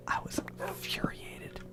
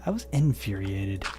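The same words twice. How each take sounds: First: Whispered, with the in- dropped so infuriated comes out as furiated; slip of the tongue. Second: Infuriated said in full with the in- clearly sounded, in-FYOO-ree-ay-ted; corrected word. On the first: Real, not acted. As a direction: hush it and drop the in- from infuriated, saying furiated. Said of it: "I said I was furiated, not infuriated". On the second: Shown as a demonstration. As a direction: fix it by sounding every syllable of infuriated, starting with in-. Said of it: "not infuriated".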